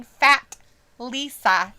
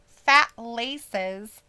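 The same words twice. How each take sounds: First: "Lisa" with a long EE, ending in -uh; misheard as LISA. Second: "Laces" with a long AY, ending in -iz; LACES enunciated. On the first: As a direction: say "Lisa" as LEE-suh. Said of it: "it sounds to her like I'm saying". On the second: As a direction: say "Laces" clearly, LAY-siz. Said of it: "when I say". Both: Shown as a demonstration.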